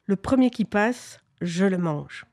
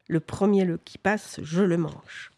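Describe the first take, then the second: First: A hint of a sneering monster, lightly voiced; sinister sneering monster. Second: Patient monster. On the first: Monster at his cave mouth threatening passers-by, lightly sinister sneer. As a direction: snicker it out like a mild storybook monster. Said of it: "avec des ricanements sinistres". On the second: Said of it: "à attendre et à dire". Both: A narrator's reading.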